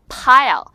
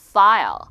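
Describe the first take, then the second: First: "Pile" loud with popped p; P sound. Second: "file" loud with lip-on-teeth f; F sound. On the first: Teacher models for viewers, "Pile" with popped p. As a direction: burst both lips on "Pile". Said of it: "입술 두 개가 붙습니다". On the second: Teacher models for viewers, "file" with airy f. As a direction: blow air to start "file". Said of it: "F는 위". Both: Shown as a demonstration.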